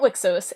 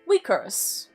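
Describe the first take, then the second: First: The X is said as a 'ks' sound. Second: The X is said as a 'kr' sound. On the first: The speaker calls it wrong. "it is not Wixos" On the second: The speaker calls it right. "the X in Wicros is a C R sound"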